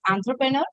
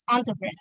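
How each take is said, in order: First: It is said with an Indian accent. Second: It is said with a British or American accent.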